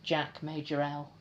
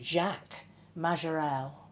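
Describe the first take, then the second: First: The name is said with a British accent. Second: The name is said with a French accent. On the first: "if I was being very British, I would say" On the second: "I'm going to try and pronounce this in a French accent"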